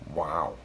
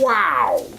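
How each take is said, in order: First: It sounds sarcastic and unimpressed. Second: It sounds genuinely shocked and amazed. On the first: The speaker is not impressed at all. "a sarcastic wow would be more like this" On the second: The speaker is truly impressed. "Like a real wow. Like you're really genuinely shocked and amazed"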